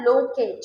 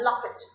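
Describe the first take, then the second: First: "लोकेट" with a slow long oh; "लोकेट", first vowel rounded and held; long o sound. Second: "लॉकेट" with a short open o; "लॉकेट", o open and quick; short o sound. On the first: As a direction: draw out the o in "लोकेट". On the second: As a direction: keep the first vowel of "लॉकेट" brief. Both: Shown as a demonstration. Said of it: "difference है short sound long sound".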